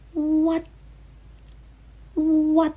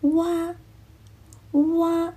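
First: The word ends with an abrupt, cut-off stop. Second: The word ends open, with a relaxed tongue. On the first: The speaker calls it right. "标准的发音应该是what what" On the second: The speaker calls it wrong. "他发的是哇哇"

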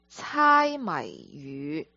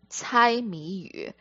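First: The phrase is pronounced with Cantonese sounds and tones. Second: The phrase is pronounced with Mandarin sounds and tones. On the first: "如果是在广东话呢，在粤语" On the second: "如果我们在普通话里面，我们会说这个字叫猜谜语"

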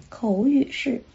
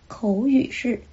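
The two takes are said the same way.

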